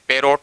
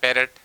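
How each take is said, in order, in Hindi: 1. दूसरे शब्दांश में 'o' स्वर है। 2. दूसरे शब्दांश में हल्का 'e' स्वर है। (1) "हम बोलते हैं पैरोट" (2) "होता है, पैरेट"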